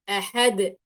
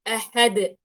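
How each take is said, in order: Both takes have the same delivery.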